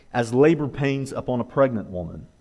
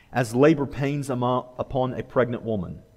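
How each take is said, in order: Both takes have the same delivery.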